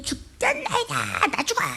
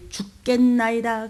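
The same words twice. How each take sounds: First: Whining panic. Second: Slow hushed whisper of 죽겠나이다. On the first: Retold or imitated. Preacher mocking the panicked disciples, whiny. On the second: Shown as a demonstration. Preacher hushing the phrase for the congregation, whispered. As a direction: breathe 죽겠나이다 out without voice. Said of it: "입 조심해요".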